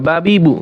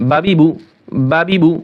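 First: Each syllable said apart, slowly; slow drill. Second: বাবিবু run together as one quick word; fast drill. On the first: Teacher reading বা বি বু slowly for students, slow and separated. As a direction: spell out বা বি বু slowly so learners follow. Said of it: "আমি আস্তে করি যাতে আপনাদের বুঝতে সুবিধা হয়". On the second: Teacher showing students the fast বাবিবু, quick and joined. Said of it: "আপনারা চাইলে আরও দ্রুত করবেন". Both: Shown as a demonstration.

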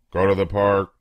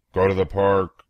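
No difference in how they are said.

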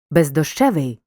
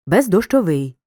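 First: Бездощевий with stress on the syllable ЩЕ; stress on the suffix. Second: Бездощовий with stress on final ВИЙ; stress on the ending. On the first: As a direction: stress ЩЕ in бездощевий, not the ending. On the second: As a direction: hit the last syllable, ВИЙ, in бездощовий. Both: Shown as a demonstration. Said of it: "Звертай увагу на наголос у слові".

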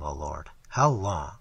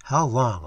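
First: Slow, low, pleading; pleading prayer. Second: Said in the usual way. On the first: A narrator's reading. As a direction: draw it out like a desperate prayer. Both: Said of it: "the prayer in their hearts".

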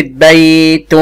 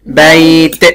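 First: بيت drawn out as baytun, slowly; voweled ending. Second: بيت stopped on a released t, bayt; sukun ending. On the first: Teacher testing the ending, بيت as slow baytun. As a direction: sound a full "-tun" on بيت, slow. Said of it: "مرة ساكنة ومرة متحركة". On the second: Teacher testing the ending, بيت as bayt. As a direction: close بيت on t without a vowel. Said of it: "هقف عليها بالسكون". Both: Shown as a demonstration.

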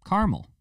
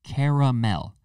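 First: "Caramel" as CAR-mel, high and sharp; wrong pronunciation. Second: "Caramel" as CARE-a-mel, three syllables; right pronunciation. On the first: Mocking the two-syllable "Caramel" way. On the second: Showing viewers the three-syllable "Caramel". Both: Shown as a demonstration. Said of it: "Not caramel".

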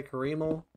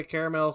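First: Caramel said kuh-REE-mul; altered caramel. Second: Caramel said CARE-uh-mel; caramel in three syllables. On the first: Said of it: "some people say caramel". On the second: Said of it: "Some people say". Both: Shown as a demonstration.

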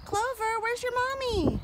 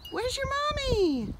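First: Higher cooing question; high pet talk. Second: Higher, slow, drawn-out coo; gosling is asked again, slower and cooing. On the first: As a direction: coo at the little gosling. Calling to a gosling. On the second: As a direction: stretch it out sweetly for the gosling. Repeats question to gosling. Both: Real, not acted.

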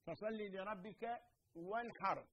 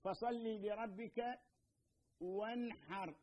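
First: Quran recitation. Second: Very slow, drawn-out tajweed recitation of فصل لربك, each sound held; Quran recitation. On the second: Teacher demonstrating the verse to students, slow recitation. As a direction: chant it slowly and carefully as Quran, with a pause before وانحر. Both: Shown as a demonstration. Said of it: "عندنا مثلًا الحاء".

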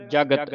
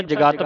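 First: ਜਗਤ with both vowels short, ja-gat; correct reading. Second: ਜਗਤ with a long second vowel, ja-gaat; common misreading. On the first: Teacher correcting congregations, short-vowelled ਜਗਤ. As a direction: keep the second a of ਜਗਤ short. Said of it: "ਇਹਨੂੰ ਜਗਤ ਪੜ੍ਹਨਾ ਹੈ". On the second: Teacher quoting congregations' mistake, ਜਗਤ as ja-gaat. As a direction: stretch the vowel after ਗ in ਜਗਤ. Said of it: "ਕਈ ਸੰਗਤਾਂ ਜਗਤ ਪੜ੍ਹ ਜਾਂਦੀਆਂ". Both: Shown as a demonstration.

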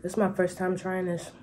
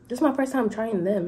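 First: Eating while talking; chewing through the words; mouth full. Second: Said in the usual way. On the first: Real, not acted. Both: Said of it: "I'm talking with my mouth full".

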